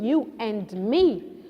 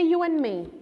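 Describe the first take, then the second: First: The D in and is pronounced. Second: The D in and is dropped.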